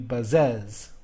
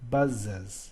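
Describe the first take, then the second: First: The stress is on the second syllable. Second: The stress is on the first syllable. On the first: The speaker calls it wrong. "If I said it was stressed, it would be buzzes, and that we don't talk like that" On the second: The speaker calls it right. "I emphasize the first part of the word buzzes, and the es is unstressed"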